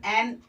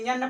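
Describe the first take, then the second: First: "एन" as en, vowel first; correct pronunciation. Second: "यन" with a y-glide before the N; wrong student pronunciation. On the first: Teacher showing how N should be read, correct pronunciation. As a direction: say "एन" with no y-glide. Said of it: "यहाँ पर F पढ़ा जाएगा". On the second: Teacher showing how students misread the letter N, wrong pronunciation. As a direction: say "यन" as yen, y first. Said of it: "pronunciation बच्चे करते हैं". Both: Shown as a demonstration.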